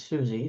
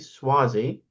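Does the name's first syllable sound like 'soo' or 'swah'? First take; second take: soo; swah. First: The name begins with a plain 'soo' sound. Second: The name begins with a 'swah' sound. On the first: The speaker calls it wrong. "not Susie" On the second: The speaker calls it right. "I have to apologize for mispronouncing his name"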